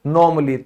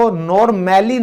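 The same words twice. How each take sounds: First: Normally as nor-muh-lee, a silent; correct normally. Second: Normally with a full a, nor-mal-ly; wrong normally. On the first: Teacher gives the right normally. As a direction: say normally with the a dropped. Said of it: "इसको हम बोलेंगे normally". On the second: Teacher shows the mistaken normally. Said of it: "normally नहीं बोलेगा कोई". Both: Shown as a demonstration.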